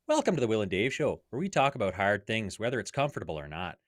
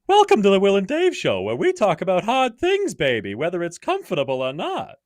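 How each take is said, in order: First: It is said in a Canadian redneck voice. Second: It is said in a Pink Panther voice.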